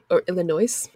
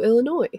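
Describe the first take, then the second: First: The final s is pronounced. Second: The final s is silent.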